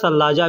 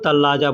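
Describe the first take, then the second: First: The word begins with an s sound. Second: The word begins with a t sound. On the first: This follows how the word is written. "लिखने में सलाजा लिखा जाता है" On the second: This is how people say it in everyday speech. "बोल चाल में लोग तल्लाजा कहते हैं"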